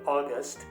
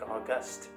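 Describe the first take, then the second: First: The stress is on the first syllable. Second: The stress is on the second syllable. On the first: It names the month. "I should have said August" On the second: It means grand or dignified. "I've ended up saying August"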